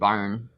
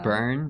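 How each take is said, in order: First: The vowel sounds like the one in 'barn'. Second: The vowel sounds like the one in 'burn'. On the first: The speaker calls it wrong. "But we used to call it Barn" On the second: The speaker calls it right. "I think it's"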